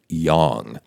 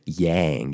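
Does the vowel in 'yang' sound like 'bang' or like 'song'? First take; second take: song; bang. First: The vowel sounds like the one in 'song'. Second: The vowel sounds like the one in 'bang'. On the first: The speaker calls it right. "it's pronounced yang" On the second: The speaker calls it wrong. "it's not yin and yang"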